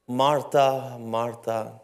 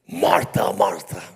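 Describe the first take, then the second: First: The name is called in a calm, gentle tone. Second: The name is called in a frustrated, angry tone. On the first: The caller is tender toward her. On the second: The caller is irritated with her.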